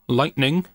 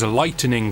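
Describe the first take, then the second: First: The word is said with two syllables. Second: The word is said with three syllables. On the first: A sudden flash of electricity in a storm. "As in an instant burst of speed, power, and action?" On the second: Making something brighter. "As in, man with light bulb who comes to brighten the dark corners of your room"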